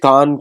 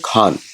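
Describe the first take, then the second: First: The word begins with a plain, unaspirated k. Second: The word begins with an aspirated kh. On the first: This is the original Mongolian form. The speaker calls it right. "Mongolian कान" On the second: This is the form used in English. The speaker calls it wrong. "English में कान को बोल दिया खान"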